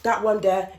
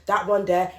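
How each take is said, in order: Both takes have the same delivery.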